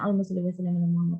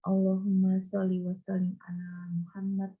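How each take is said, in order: First: It is recited quickly and hurriedly. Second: It is recited at a moderate pace.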